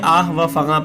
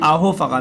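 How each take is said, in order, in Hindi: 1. दोनों शब्दों के बीच एक अलग 'va' बोला जाता है। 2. 'o' पहले शब्द से जुड़ा हुआ बोला जाता है। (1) "बहुत बच्चे गलती ये करते हैं, ... हालांकि गलत है" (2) "मिला करके पढ़ा जाता है"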